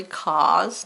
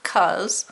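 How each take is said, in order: First: "cause" with a full open aw vowel, kawz; careful cause. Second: "'cause" with a short uh vowel, kuz; casual 'cause. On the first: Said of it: "not 'cause". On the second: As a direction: say "'cause" quickly as kuz, everyday style. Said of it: "so it's really cause". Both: Shown as a demonstration.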